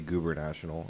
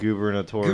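First: It is said like two words, goober national. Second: It is said as one word, gubernatorial. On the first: The speaker calls it wrong. "I always say Goober National. It's not Goober National, right?" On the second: The speaker calls it right. "It's gubernatorial"

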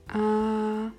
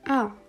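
First: The pitch stays high and level. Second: The pitch falls sharply from high to low. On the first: "der erste Ton gleichbleibend" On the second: "der vierte Ton komplett fallend"

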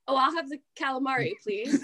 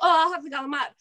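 First: Calamari is said with a standard American pronunciation. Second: Calamari is said the Italian family way.

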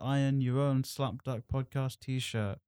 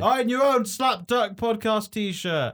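First: It is said in a casual, plain manner. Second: It is said confidently, with forceful, aggressive energy.

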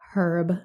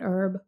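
First: It is said the British-Irish way. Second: It is said a different, non-British way. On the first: This is how English, Irish and Celtic speakers say it. The speaker calls it right. "the English and the Irish and Celtic say herb" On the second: This is not how English, Irish and Celtic speakers say it. The speaker calls it wrong. "not herb"

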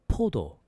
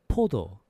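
Both takes have the same delivery.

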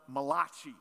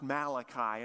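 First: The name is said with an Italian-sounding pronunciation. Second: The name is said with a standard English pronunciation. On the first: The speaker calls it wrong. "the first Italian prophet" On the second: The speaker calls it right. "actually, it's pronounced Malachi"

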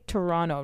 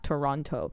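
First: Toronto is said the way locals say it. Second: Toronto is said the way Americans say it. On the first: The speaker calls it right. "say Toronto" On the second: The speaker calls it wrong. "not Toronto"

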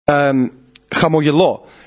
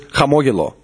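First: The stress falls on a later syllable. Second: The stress falls on the second syllable. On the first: It says that I am smiling. "I read it as in chamogelo, which means I am smiling or I am laughing" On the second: It names a smile or laughter. "Which means laughter"

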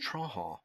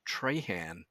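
First: The name has the South Louisiana French pronunciation. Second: The name has the pronunciation used outside that region. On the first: This is how the local French community says it. "In South Louisiana, where the French people live, it's Trahan" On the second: This is how people outside the region say it. "I've been referred to as Trahan outside of that part of Acadia Parish"

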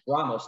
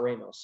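First: The first vowel is an open Spanish A. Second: The first vowel is an English hard A. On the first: The speaker calls it right. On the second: The speaker calls it wrong. "not Ramos"

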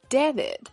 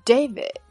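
First: The first vowel is not the letter-name A. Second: The first vowel is the letter-name A sound. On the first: The speaker calls it wrong. "很多中国人会把它错读为David" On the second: The speaker calls it right. "字母A 要发它的本音A，所以这个名字的正确读法是David"

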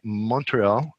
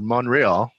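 First: The T sound is clearly pronounced. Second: The T sound is left out.

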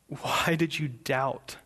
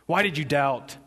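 First: It is said in a caring tone. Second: It is said in a scolding tone.

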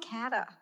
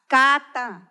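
First: The name has an English pronunciation like 'cat'. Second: The name has a Spanish pronunciation. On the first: This is how other people say the name. The speaker calls it wrong. "most people call me Cata" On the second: This is how the owner of the name says it. The speaker calls it right. "my name is Cata"

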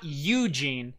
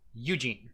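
First: The stress is on the first syllable. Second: The stress is on the second syllable. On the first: The speaker calls it wrong. "it's not Eugene" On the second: The speaker calls it right. "it's Eugene. G gets the emphasis. U does not"

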